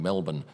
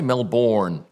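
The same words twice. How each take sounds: First: It is said without an American accent. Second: It is said with an American accent.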